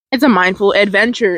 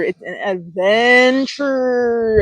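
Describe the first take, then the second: First: Said in the usual way. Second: "adventure" held long and playful; slow, lingering singsong on "adventure"; drawn-out ADVENTURE. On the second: Pretend. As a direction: stretch ADVENTURE out very slowly.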